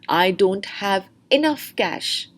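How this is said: The stress falls on the word enough. "Now the stress is on enough"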